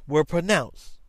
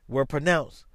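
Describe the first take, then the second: Both takes have the same delivery.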